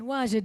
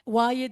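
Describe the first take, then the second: First: The middle consonant is a j sound. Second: The middle consonant is a y sound. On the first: The speaker is from a Bedouin background. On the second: The speaker is from an urban background.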